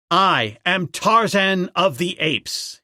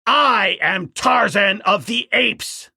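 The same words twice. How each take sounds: First: Slow, raised proclamation; Tarzan crying out. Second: Slow, loud and high challenge; Tarzan screaming. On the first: Ape man declaring himself to the tribe, raised cry. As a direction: announce yourself slowly to the apes. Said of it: "he cried". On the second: Ape man holding the king ape, slow shouted challenge. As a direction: bellow his name at the foe. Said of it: "screamed the ape man". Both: Acted.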